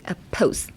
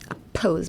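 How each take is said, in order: First: The word ends in an s sound. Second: The word ends in a z sound. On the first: The speaker calls it wrong. "oppose じゃなくって" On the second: The speaker calls it right. "サウンドは Z で"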